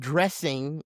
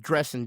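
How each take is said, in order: First: The word ends with a full 'ing' sound. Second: The word ends with 'in', dropping the g. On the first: The speaker calls it wrong. "it's not dressing" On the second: The speaker calls it right. "D R E S S I N apostrophe"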